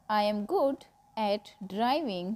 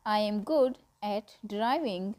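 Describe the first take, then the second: No difference in how they are said.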